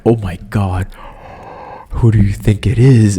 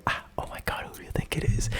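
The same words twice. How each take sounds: First: A louder, eager "who do you think it is?"; excited wondering. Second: Secretive whisper under the breath; whispered to herself. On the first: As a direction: blurt it out in excitement. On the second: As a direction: whisper it to yourself in suspense. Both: Retold or imitated. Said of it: "talking to myself".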